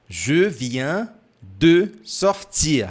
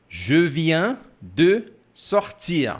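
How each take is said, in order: The two takes are said the same way.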